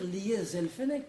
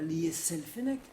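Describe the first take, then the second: First: A voiced Z sound links the two words. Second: A voiceless S sound links the two words. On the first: The speaker calls it right. "On doit dire" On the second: The speaker calls it wrong.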